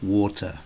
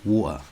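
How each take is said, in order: First: The T in the middle is clearly pronounced. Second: The T is replaced by a glottal stop. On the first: "R P, it'd probably be more like water. It would be you'd hear it more" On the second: "it'd probably be a glottal stop. So it'd be more like water"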